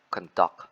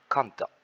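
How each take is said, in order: First: Second "conduct" as the verb, weight on DUCT; stress on second syllable. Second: First "conduct" as the noun, weight on CON; stress on first syllable. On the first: Presenter contrasting verb with noun, stress on second syllable. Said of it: "at the second syllable". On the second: Presenter contrasting noun with verb, stress on first syllable. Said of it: "placed at the first syllable". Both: Shown as a demonstration.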